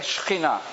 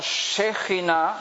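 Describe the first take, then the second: First: No vowel is heard between the first consonants. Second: A vowel is heard between the first consonants. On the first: This is the modern pronunciation. "hoy en día se dice Shechina, sin la E" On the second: This is the older pronunciation. "Antiguamente se pronunciaba como"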